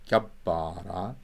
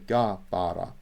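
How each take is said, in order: First: The b sound is held long and doubled. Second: The b sound is short and single. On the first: The speaker calls it right. "there's two B's I just made" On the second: The speaker calls it wrong. "they would not understand me in modern Syriac"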